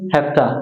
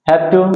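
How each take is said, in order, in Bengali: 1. শব্দগুলো সংক্ষেপ হয়ে একসাথে মিশে যায়। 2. দুটো শব্দই পুরোপুরি আর আলাদা করে বলা হয়।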